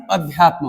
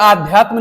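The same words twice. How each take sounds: First: अध्यात्म opening on a short a; correct pronunciation. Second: आध्यात्म opening on a long aa; wrong pronunciation. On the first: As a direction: keep the first vowel of अध्यात्म short. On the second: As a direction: stretch the first vowel of आध्यात्म as the mistake. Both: Shown as a demonstration. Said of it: "आध्यात्म नहीं अध्यात्म होता है".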